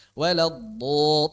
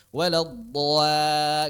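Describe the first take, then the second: First: Slow Waladdo- with the alif kept heavy after dod; correct heavy reading. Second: Slow Waladdo- with the alif not following the heavy dod; wrong reading. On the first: Teacher shows students the correct reading, slow and heavy. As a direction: stretch Waladdo- keeping the alif thick like the dod. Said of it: "terus kan?". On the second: Teacher shows students a reading to avoid, slowly drawn. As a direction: drag out Waladdo- as a mistake to avoid. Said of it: "nggak gitu kan?". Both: Shown as a demonstration.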